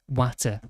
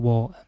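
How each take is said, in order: First: The T in the middle is clearly pronounced. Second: The T in the middle is dropped. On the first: This is how people from the speaker's region say it. "where we're from, we say water as water" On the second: This is how southerners say it. "That's how they pronounce it. It's got like a more Cockney accent to it"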